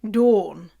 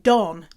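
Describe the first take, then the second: First: The name is said in a British accent. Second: The name is said in a Canadian accent. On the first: "here's another name. Dawn. D A W N" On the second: "Canadians say Don"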